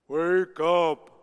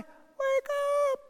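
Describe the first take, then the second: First: It is said in a deep voice. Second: It is said in a high voice.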